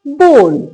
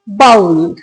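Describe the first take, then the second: First: The vowel sounds like the one in go. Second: The vowel sounds like the one in cow. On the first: The speaker calls it right. "इसको कहा जाता है बोल" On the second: The speaker calls it wrong. "First word ही आप mispronounce करते हैं"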